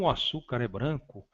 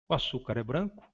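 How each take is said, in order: First: It is said with an exclamatory, emphatic tune. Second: It is said with a questioning, rising tune. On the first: It expresses surprise or emphasis. "frase exclamativa" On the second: It asks whether this is true.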